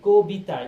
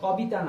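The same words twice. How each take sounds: First: The first vowel is a closer 'o' sound. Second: The first vowel is an open 'aw' sound. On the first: The speaker calls it right. "শব্দটা কি কবিতা, যে রসিকার আছে এই জন্য কবিতা হয়েছে" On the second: The speaker calls it wrong. "দেখো কবিতা না"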